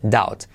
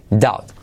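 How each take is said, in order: No difference in how they are said.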